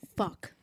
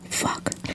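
First: It is said in an ordinary speaking voice. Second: It is said in a soft ASMR-style voice. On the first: The speaker calls it wrong. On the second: The speaker calls it right.

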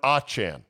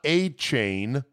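First: The last syllable does not sound like 'chain'. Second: The last syllable sounds like 'chain'. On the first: This is how the player wants it said. The speaker calls it right. "but Achane" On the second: This is how the name was once said. The speaker calls it wrong. "Not Achane"

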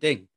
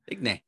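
First: The name is pronounced the French way. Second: The name is pronounced as it is spelled. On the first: "I'm not French. I'm not going to pronounce it that way" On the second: "It's spelled Digne, and I'm saying Lucas Digne"

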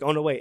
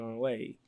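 First: It sounds excited and enthusiastic. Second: It sounds flat and matter-of-fact.

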